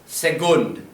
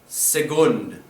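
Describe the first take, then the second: No difference in how they are said.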